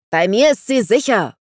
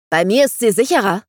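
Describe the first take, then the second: First: Louder and higher, leaning on mir; roaring. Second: Angry claim. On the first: A narrator's reading. Vangelis roars at Dandelion, loud and possessive. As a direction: roar the claim across the fight. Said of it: "brüllte Vangelis". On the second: Acted. Sword fight, heated quarrel.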